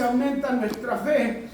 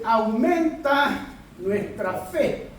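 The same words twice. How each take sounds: First: Said in the usual way. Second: "Aumenta nuestra fe" drawn out slowly with AUMENTA stressed; slow emphatic quote. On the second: Shown as a demonstration. Preacher quoting the disciples, slow and emphatic. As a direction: lean on "Aumenta", let each word land slowly. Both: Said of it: "¿Han escuchado eso".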